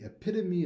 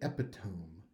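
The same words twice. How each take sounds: First: It is said with the standard four-syllable pronunciation. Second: It is sounded out letter by letter as spelled. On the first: The speaker calls it right. "I've heard people want to say the word epitome" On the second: The speaker calls it wrong. "because they're sounding it out off paper. Oops"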